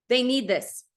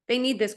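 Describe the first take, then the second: First: "They" leaned on, falling at the end; stress on they. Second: "need" pressed harder, falling at the end; stress on need. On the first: Insisting to the viewers, stress on "They". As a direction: push the word "They". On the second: Repeating it to the viewers, stress on "need". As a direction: punch the word "need". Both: Shown as a demonstration.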